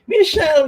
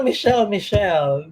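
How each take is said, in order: First: Calling out. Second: Said in the usual way. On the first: Real, not acted. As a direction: sing out the name, high. Host calls out guest's name.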